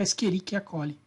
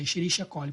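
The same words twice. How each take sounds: First: The "ch" is said as a k sound. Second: The "ch" is said as an sh sound. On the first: It follows the Latin naming tradition. "na pronúncia latinizada" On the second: It follows the German surname of the discoverer. "no alemão C H vai ter som de X"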